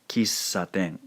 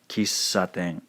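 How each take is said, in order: First: The middle consonant is a long held s. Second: The middle consonant is a long held s.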